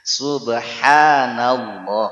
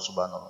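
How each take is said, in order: First: The h sound in the middle is clearly pronounced. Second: The h sound in the middle is dropped. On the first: The speaker calls it right. "ada ha ada ha" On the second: The speaker calls it wrong. "jangan lagi subhanallah subhanallah subhanallah"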